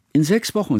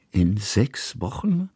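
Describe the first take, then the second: First: Put-on higher girl's voice cutting in; a hint of a child interjecting; girl chiming in. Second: Slow, rising "Wochen?" in disbelief; surprised repeat. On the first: Girl interjects the date, higher voice. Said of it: "warf Hanaka ein". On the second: Old painter echoing the news, slow and surprised. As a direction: echo it back slowly, taken aback. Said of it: "wiederholte Kusmin". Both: A narrator's reading.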